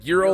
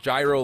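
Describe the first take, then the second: First: It does not begin like gyrocopter. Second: It begins like the word gyrocopter. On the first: It names the Greek pita dish. "like the little Greek, you know, pita" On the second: It sounds like the aircraft word. "like you know gyrocopter?"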